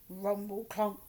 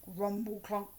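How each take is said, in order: Both takes have the same delivery.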